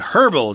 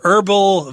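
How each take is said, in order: First: The word begins with an audible h sound. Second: The word begins with a vowel, no h. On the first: "You'll also hear people say herbal tea" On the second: "Americans tend to not pronounce the H there"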